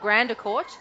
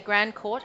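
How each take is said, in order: First: The name is said with three syllables. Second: The name is said with two syllables. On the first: The speaker calls it wrong. "and not Grandercourt" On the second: The speaker calls it right. "I've got to make sure I say Grandcourt"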